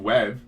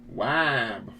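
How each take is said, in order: First: The name is said with its usual vowel. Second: The name is said with a different northern vowel. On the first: "Webb is my last name" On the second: "We're from the north. We say Wab"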